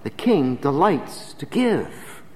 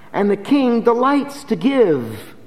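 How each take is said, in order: First: "The king delights to give" very slow and soft; slow and quiet. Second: "And the king delights to give" high, louder, slow, "delights" stressed; preached. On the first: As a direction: let "The king delights to give" settle slowly. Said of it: "quiet slow moral". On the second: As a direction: proclaim "delights". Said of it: "preached repeat". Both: Shown as a demonstration.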